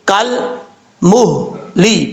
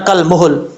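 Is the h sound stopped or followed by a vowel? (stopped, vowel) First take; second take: stopped; vowel. First: The h sound is stopped with no vowel. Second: The h sound is followed by a vowel. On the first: The speaker calls it right. "हा साकिन है। ... आवाज हा के ऊपर जम जाए" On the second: The speaker calls it wrong. "इसको ऐसा नहीं पढ़ना कल मुहल, ... हा के ऊपर भी पेश पढ़ा जाएगा जो कि गलत है"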